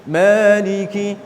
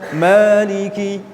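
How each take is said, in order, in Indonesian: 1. Mad itu dibaca dua harakat. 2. Mad itu dibaca dua harakat.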